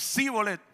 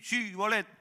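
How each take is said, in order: First: The word begins with an 's' sound. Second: The word begins with a 'ch' sound. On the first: This gives the speaker away as the enemy. "no le salía el C H. Y se terminaba diciendo sí, bolet" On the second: This is the password as the defenders say it. "di, chi, bolet"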